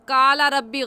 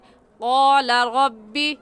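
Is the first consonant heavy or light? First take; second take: light; heavy. First: The first consonant is light, without rounded lips. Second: The first consonant is heavy, with rounded lips. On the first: The speaker calls it wrong. "काला रब्बी गलत है" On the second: The speaker calls it right. "सही है क़ाला रब्बी"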